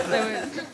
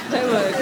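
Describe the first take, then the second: First: A softer echo, THEY lightly stressed; hushed second take on THEY; soft they won't. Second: THEY stressed, low and firm; firm flat denial on THEY; firm they won't. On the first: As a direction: quieter repeat with a small rise. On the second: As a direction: lean on THEY, dropping low. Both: Shown as a demonstration. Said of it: "repeated for emphasis".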